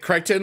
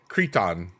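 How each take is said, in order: First: The first vowel sounds like 'eye'. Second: The first vowel sounds like 'ee'. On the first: "like Titan" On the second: "Like a dude on Crete?"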